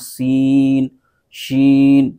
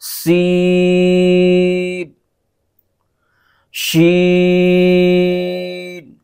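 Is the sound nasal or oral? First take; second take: nasal; oral. First: The voice goes through the nose. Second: The voice stays out of the nose. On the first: The speaker calls it wrong. "तो नाक में आवाज़ जा रही है, तो ऐसा नहीं होना चाहिए" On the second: The speaker calls it right. "बल्कि इसको पढ़ेंगे"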